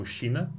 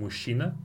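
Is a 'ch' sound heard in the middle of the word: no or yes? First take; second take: no; no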